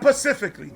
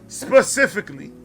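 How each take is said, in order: First: The word starts with a p sound. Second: The word starts with an s sound. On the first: The speaker calls it wrong. "not pacifically" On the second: The speaker calls it right.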